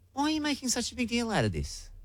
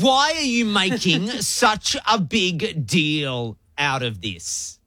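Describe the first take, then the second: First: It is asked in a curious tone. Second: It is asked in a hostile tone.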